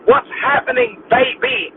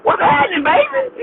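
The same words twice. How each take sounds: First: Quiet mock greeting. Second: Slangy greeting repeated. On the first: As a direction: hush the slang greeting down. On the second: Retold or imitated. Repeating the greeting to a confused coworker, higher and slangier. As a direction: lay the slang on thick. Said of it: "what did you just say".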